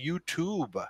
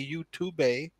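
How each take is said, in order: First: The final E is silent, with no extra syllable. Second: The final E is pronounced as an extra syllable. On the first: The speaker calls it right. "We just say YouTube" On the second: The speaker calls it wrong. "We don't say YouTube"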